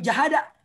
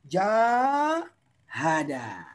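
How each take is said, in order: First: The first vowel is said short. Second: The first vowel is said long. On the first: The speaker calls it wrong. "bukan jahada, Salah itu" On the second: The speaker calls it right. "Ada alif tambahan sesudah huruf yang pertama"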